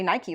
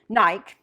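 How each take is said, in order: First: It is said with an American pronunciation. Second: It is said with a British pronunciation.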